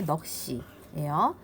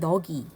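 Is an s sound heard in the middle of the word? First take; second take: yes; no. First: A tense s sound links into the second syllable. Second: No s sound; a plain g links forward. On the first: The speaker calls it right. "바르게 발음되는 게 넋이에요" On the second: The speaker calls it wrong. "잘못된 발음이 너기"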